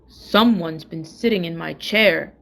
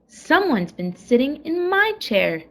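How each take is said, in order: First: It is said in a great big voice. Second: It is said in a middle-sized voice.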